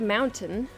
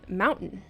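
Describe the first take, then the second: First: The T in the middle is clearly pronounced. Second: The T in the middle is dropped. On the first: "instead of mountain" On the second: "There's no T in there"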